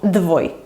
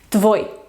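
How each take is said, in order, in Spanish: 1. La palabra empieza con un sonido d sonoro. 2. La palabra empieza con un sonido t sordo. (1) "y no dvoi" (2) "decimos tvoi"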